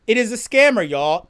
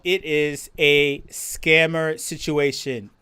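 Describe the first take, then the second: First: Said in the usual way. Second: Slow, low drawn-out emphasis. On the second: Real, not acted. Streamer warning chat slowly and heavily. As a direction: spell out It is a scammer situation slowly.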